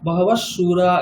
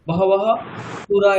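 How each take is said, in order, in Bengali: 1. প্রথম শব্দটি sh ধ্বনিতে শেষ হয়। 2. প্রথম শব্দটি h ধ্বনিতে শেষ হয়। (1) "এরকম বলছি" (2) "এরকম ভাবে উচ্চারণ করি না"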